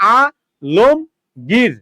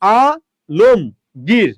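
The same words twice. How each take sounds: The two takes are said the same way.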